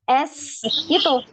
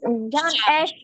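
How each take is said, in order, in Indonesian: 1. S tajam, dibuat dengan ujung lidah. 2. S yang lebih tumpul, mengarah ke sh. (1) "S tadi bagaimana? S gitu" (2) "Jangan S, bukan"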